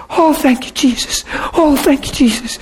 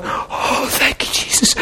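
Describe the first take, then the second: First: Lightly voiced joyful woman, high and soft on Jesus; mock joyful thanks. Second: Whispered, tearful thanks; crying whisper. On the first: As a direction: imitate her high happy thanks. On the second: Retold or imitated. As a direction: breathe it out like she's weeping. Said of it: "crying, going".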